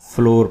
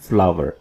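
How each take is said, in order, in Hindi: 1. यह शब्द 'floor' जैसा लगता है, एक शब्दांश। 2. यह शब्द 'flower' जैसा लगता है, दो शब्दांश। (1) "इसको हम अब तक फ्लोर पढ़ते हैं" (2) "सही प्रोनाउंसिएशन है फ्लावर"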